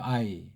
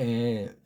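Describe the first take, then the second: First: It is said as an 'eye' glide. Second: It is said as a single 'ae' vowel. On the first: The speaker calls it wrong. "어떤 사람은 뭐 그냥 이걸 I라고 해요" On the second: The speaker calls it right. "정음으로 애자예요"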